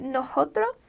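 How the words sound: The s sounds are softened to an h sound.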